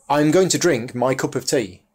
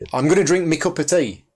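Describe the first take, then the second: First: It is said with standard 'my'. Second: It is said with northern 'me' for 'my'.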